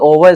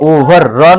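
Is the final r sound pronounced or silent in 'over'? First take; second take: silent; pronounced. First: The final r sound is left silent. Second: The final r sound is clearly pronounced. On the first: The speaker calls it right. "आर को silent" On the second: The speaker calls it wrong. "ओवर र नहीं बोलेंगे"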